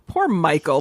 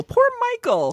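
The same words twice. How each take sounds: First: Said in the usual way. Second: Much higher, exaggerated pity; mock pity. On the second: Real, not acted. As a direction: sing it up high in mock sympathy. Repeats with exaggerated sympathy.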